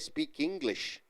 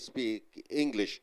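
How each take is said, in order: First: The k sound links into the next word. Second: The two words are said with a break. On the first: The speaker calls it right. "You say speak English" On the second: The speaker calls it wrong. "You don't say speak English. You don't uh, uh, say the word separately"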